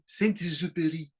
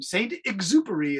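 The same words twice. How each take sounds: First: The name is said the French way. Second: The name is said the English way.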